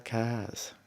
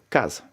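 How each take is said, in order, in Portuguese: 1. As vogais são longas e arrastadas. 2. As vogais são curtas e bem cortadas. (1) "Na Ilha do Fogo dizem, ... A letra A é maior" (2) "Nós dizemos em Santiago, ... É muito percutido"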